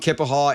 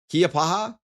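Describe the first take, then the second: First: The name begins with a 'kip' sound. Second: The name begins with a 'kee-uh' sound. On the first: The speaker calls it right. "It's pronounced Kippahaw?" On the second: The speaker calls it wrong. "I'm probably saying that wrong"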